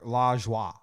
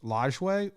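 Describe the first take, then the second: First: The name is said like 'la joie'. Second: The name is said like 'lodge way'. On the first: "It's it's either La Joie or Lodge Way" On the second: "It's it's either La Joie or Lodge Way"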